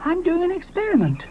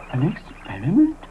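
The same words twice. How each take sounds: First: High, self-important; proud Moschops. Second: Doubtful Ally. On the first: Moschops explains himself to Ally, high self-important voice. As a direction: announce it grandly. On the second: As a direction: echo it, doubtful. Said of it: "asked Ally". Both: Acted.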